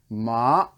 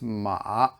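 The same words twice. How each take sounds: First: The pitch rises from low to high. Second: The pitch dips low, then comes up. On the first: "that's the second tone, the bike ramp" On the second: "The third tone is it's a dipping tone, so it goes like this"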